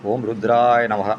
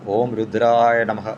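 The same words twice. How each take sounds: No difference in how they are said.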